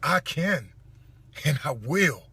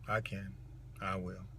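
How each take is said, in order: First: It is said forcefully, with strong emotion and conviction. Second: It is said casually, without belief or feeling.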